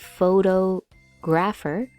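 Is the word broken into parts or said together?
broken. The word is broken into separate parts. The speaker calls it wrong. "many people will try to say it as"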